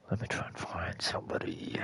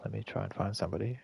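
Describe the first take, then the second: First: Whispered to himself, barely voiced. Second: Said in the usual way. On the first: Real, not acted. Streamer whispering to himself while searching the player list. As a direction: breathe it out under the breath. Repeats phrase, then whispers it.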